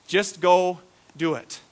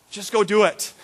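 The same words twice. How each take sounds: First: Just go do it, said with a laugh, slowly; laughing, slower. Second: Said in the usual way. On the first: Shown as a demonstration. Preacher repeating the line for the church with a laugh. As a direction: chuckle through it slowly.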